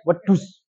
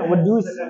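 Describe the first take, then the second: First: The d sounds thick and heavy. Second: The d sounds light and thin. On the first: The speaker calls it wrong. "dia bacanya wedus. Nah, itu medok" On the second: The speaker calls it right. "Harusnya kan"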